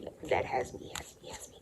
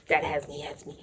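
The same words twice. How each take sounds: First: Soft, voiceless repetition; hushed dread. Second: Said in the usual way. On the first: Real, not acted. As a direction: let the words drain away in dread. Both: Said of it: "retelling being scolded".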